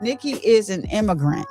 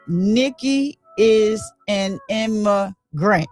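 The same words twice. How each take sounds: First: It is said at normal volume. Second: It is said louder.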